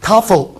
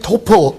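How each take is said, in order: First: The first vowel sounds like ah. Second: The first vowel sounds like oh. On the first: "미국식은 이제" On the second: "여러분 아시는"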